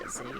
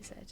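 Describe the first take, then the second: First: The letter name is said the American way. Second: The letter name is said the British way. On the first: "Americans pronounce it Z" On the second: "in British English we say Z"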